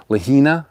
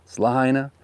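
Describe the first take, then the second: First: "Lahina" said lah-HEE-nah, no ai sound; a questioning tourist "Lahina"; mispronunciation. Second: "Lahaina" the local way, ai opened to eye; correct pronunciation. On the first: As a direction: say "Lahina" the way a tourist does, ai squeezed to ee. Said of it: "It's not Lahina". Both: Shown as a demonstration.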